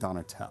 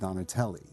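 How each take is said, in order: First: The name ends without a final vowel sound. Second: The name ends with a vowel sound. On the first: "make the E silent" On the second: "he still pronounced it Donatelli"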